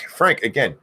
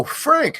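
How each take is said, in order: First: Said in the usual way. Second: High yelled Frank; screamed name. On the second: Acted. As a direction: scream Frank like a war cry.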